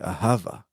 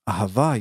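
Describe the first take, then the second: First: The stress is on the first syllable. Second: The stress is on the last syllable. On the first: This is how it is said in the US, likely from Yiddish. The speaker calls it wrong. "emphasize the beginning of the word" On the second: This is how it is said in proper Hebrew. The speaker calls it right. "instead of the answer"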